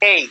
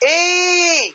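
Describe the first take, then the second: First: The call is short and quick. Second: The call's vowel is stretched and held long. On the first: The person is nearby. "কাছে একজন ব্যক্তি আছে, তাকে ডাক দিবেন এই" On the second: The person is far away. "দূর থেকে ডাক দিবেন এই, ... টান দিয়ে ধরে রাখছেন"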